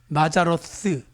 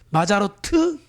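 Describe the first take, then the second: First: The last syllable ends with a 'th' sound. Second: The last syllable ends with a 't' sound. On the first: "스가 th 발음이에요" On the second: "마자로트 해도 되고요"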